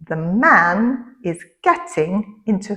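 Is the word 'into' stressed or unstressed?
unstressed. The word 'into' is said without stress. Someone is physically entering a car. "trois mots importants"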